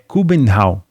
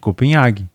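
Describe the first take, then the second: First: The name is said the Danish way. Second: The name is said the Portuguese way. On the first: This is the native form. The speaker calls it right. "no Danish, a pronúncia é Kubenhavn" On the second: This is how people say it locally. The speaker calls it wrong. "Como a gente costuma chamar por aqui"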